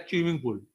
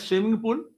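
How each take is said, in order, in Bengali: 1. প্রথম শব্দটি একটি সাধারণ ch ধ্বনি দিয়ে শুরু হয়। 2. প্রথম শব্দটি একটি সাধারণ s ধ্বনি দিয়ে শুরু হয়। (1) "आसाम में चलिएगा तो बोलेगा" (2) "हम बोलेंगे"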